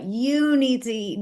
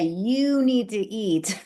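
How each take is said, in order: First: Higher, insistent "You need to eat"; pushy lecture. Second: Slow, drawn-out lecturing "You need to eat"; preachy quote. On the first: Nagging a meat-eating friend, in a higher insistent voice. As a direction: push "You need to eat" hard like a nag. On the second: Telling a friend what to eat, in a slow preachy drone. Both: Shown as a demonstration. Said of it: "'cause if I say".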